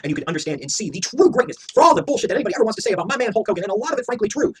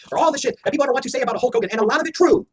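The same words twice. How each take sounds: First: Said in the usual way. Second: Louder and higher, leaning on "true"; emphasized repeat. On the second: Shown as a demonstration. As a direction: hit "true" hard so it lands. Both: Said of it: "Hear that again, let me emphasize".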